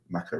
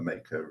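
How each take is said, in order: First: Mako said MACK-oh; short-A Mako. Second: Mako said MAY-koh; long-A Mako. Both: Shown as a demonstration. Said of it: "I think Mako and Mako".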